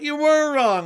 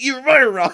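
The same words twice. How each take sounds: First: It is said in an excited, happy way. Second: It is said in a harsh, accusing way.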